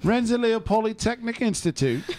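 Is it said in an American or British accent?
British. It is said in a put-on British accent.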